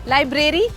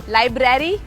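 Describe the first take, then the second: The two takes are said the same way.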